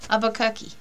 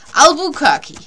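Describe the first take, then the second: First: The word is said without an L sound. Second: The word is said with an L sound. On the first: The speaker calls it wrong. "So you don't say say the L" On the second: The speaker calls it right. "So you do say the L"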